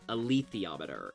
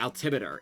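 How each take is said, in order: First: The word has six syllables. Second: The word has four syllables. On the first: The speaker calls it right. "alethiometer is how you say it" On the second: The speaker calls it wrong. "My brain said altimeter. It was extremely wrong"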